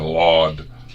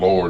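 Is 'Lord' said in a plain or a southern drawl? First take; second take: southern; plain. First: It is said drawn out in a southern accent. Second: It is said plainly, in an everyday accent. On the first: "it turned into Lord" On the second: "instead of saying Lord"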